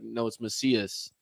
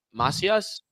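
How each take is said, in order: First: Slow, softer "Macias" as muh-SEE-us; friend's mispronunciation. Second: "Macias" as MAH-see-ahs, rising like a question; corrected pronunciation. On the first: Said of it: "And she was like". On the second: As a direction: ask "Macias" with open first A. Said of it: "And I was like". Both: Retold or imitated.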